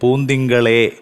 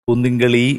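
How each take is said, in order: First: The word ends in a clear 'e' vowel. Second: The word ends in an 'i' vowel. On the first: The speaker calls it right. "ആ എ എന്നുള്ള അക്ഷരം കുറച്ചുകൂടി ഒന്ന് ശ്രദ്ധിക്കണം" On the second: The speaker calls it wrong. "പൂന്തിങ്കളി എന്നാണ് നമുക്ക് കേൾക്കുന്നത്"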